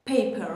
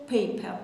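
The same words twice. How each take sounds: First: Said in the usual way. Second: British "paper" with the final r dropped; British accent. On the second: Shown as a demonstration. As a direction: say "paper" as British "pay-puh". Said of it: "بریتیشه". (تلفظ بریتیش paper بدون ر آخر)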